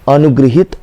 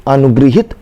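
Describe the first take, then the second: The two takes are said the same way.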